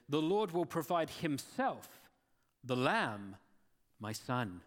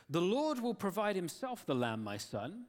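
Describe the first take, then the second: First: "The Lord will provide himself" said slowly, a pause, then "the lamb" weighted and falling; slow stress on himself and the lamb. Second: Said in the usual way. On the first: Shown as a demonstration. Preacher rereading Abraham's words to his son, slow and stressed. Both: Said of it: "Read that again, but with different emphasis".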